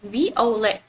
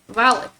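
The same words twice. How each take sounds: First: The final T is silent. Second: The final T is pronounced. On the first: The speaker calls it right. "in French we pronounce it as violet" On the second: The speaker calls it wrong. "like just like in English"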